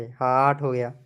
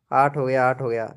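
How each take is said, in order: First: Said in the usual way. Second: Whispered, as if to himself. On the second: Real, not acted. Streamer whispers the like count to himself. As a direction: breathe the count under your breath.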